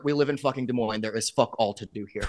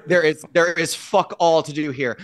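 First: Said through a laugh; chuckling while griping. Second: Louder, punched repeat; emphatic repeat. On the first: Laughing complaint about Des Moines. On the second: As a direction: hammer the complaint home. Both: Real, not acted.

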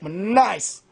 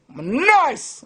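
First: Said in the usual way. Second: "I'm nice" lifted high, in a show voice; high put-on boast. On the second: Shown as a demonstration.

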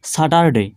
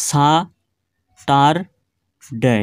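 First: Said in the usual way. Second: সা-টার-ডে very slow, each syllable held alone with a pause after it; split into three syllables. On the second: Shown as a demonstration. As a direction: break সা-টার-ডে into three distinct beats. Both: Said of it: "তিনবারে উচ্চারণ হলো".

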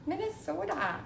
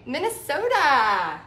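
First: Softer, higher mock Minnesota accent. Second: Put-on long, drawn-out Minnesota accent. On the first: Painter playfully repeating the state's name, soft Minnesota accent. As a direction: echo it lightly in a Minnesota accent. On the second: Painter teasing a viewer from Minnesota, exaggerated Minnesota accent. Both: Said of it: "I love y'all's accent".

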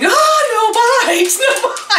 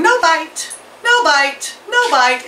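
First: Very high, slow, drawn-out squawk with only a little extra volume; a mock scream of the bird's words, pitched way up; screamed parrot echo. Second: High, chirpy parrot chant of the words. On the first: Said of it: "she started screaming". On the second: Retold or imitated. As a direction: copy the bird's call, much higher. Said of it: "and it's going".

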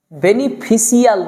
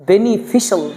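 First: "বেনিফিশিয়াল" said as beni-fi-si-al; wrong pronunciation. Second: "বেনিফিশিয়াল" said as beni-fi-shal; one syllable at the end of "বেনিফিশিয়াল", shal; correct pronunciation. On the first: Teacher rejecting a mistake, "বেনিফিশিয়াল" with si-al ending. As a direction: spell out si-al at the end of "বেনিফিশিয়াল". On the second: Teacher correcting the word, "বেনিফিশিয়াল" with shal ending. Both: Shown as a demonstration. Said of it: "না".

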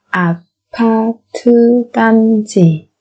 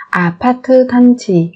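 First: Slow, separated syllables for learners; careful teacher's slow model. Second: Said in the usual way. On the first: Shown as a demonstration. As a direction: spell it out slowly, beat by beat.

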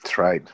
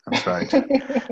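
First: Said in the usual way. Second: That's right jumped way up high; mock squeaky agreement. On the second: Host repeats co-host's joke in a squeaky high voice.

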